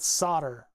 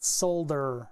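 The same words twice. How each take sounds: First: The word is said without an L sound. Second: The word is said with a clear L sound. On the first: This is the speaker's own everyday pronunciation. The speaker calls it right. "I call it solder" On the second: This is a pronunciation the speaker avoids. The speaker calls it wrong. "not solder"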